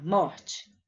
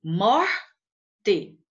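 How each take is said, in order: First: Said in the usual way. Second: "Morte" in two beats, a louder MOR, then te; "Morte" pulled apart, stress on the first syllable; split into syllables. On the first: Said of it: "a última palavra". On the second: Shown as a demonstration. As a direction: break "Morte" after "Mor", with a clear pause. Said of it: "Qual é a sílaba mais forte".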